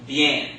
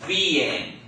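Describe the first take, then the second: First: Bien run together as one syllable; correct pronunciation. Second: Bien split into two syllables, bee-EN; wrong pronunciation. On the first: Teacher models the word bien for the class, one smooth syllable. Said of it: "It's not". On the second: Teacher shows the class how not to say it, bien in two beats. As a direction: say bien broken apart as bee, en. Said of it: "So it's not B N". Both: Shown as a demonstration.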